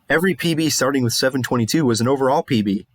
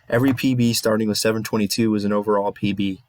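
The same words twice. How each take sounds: First: It is said in a lively, put-on voice. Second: It is said in a flat, unenthusiastic voice. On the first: "that sounds kind of fake" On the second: "that's my real voice"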